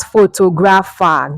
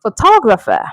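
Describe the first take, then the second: First: "photographer" as foto-GRAF-a; wrong pronunciation. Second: "photographer" as fuh-TOG-ruh-fer; correct pronunciation. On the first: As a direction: say "photographer" like photo plus grapher. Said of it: "not photographer". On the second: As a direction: punch the second syllable of "photographer". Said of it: "The correct way to pronounce this word". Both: Shown as a demonstration.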